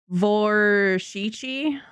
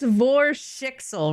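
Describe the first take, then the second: First: The name ends with a 'chi' sound. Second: The name ends with a 'ksel' sound. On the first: "Where like the X L turns into like a chi?" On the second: "Am I pronouncing it right?"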